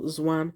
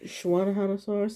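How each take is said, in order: First: The name begins with a z sound. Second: The name begins with an sh sound. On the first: The speaker calls it wrong. "or Zwan" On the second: The speaker calls it right. "you kind of pronounce it as a sh sound"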